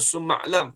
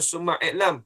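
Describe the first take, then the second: First: The words link, with no separate vowel before 'lam'. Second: A separate 'i' vowel is sounded before 'lam'. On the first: The speaker calls it right. "Hamzah wasal. Sebab tu macam summa lam" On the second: The speaker calls it wrong. "Jangan macam summa i'lam"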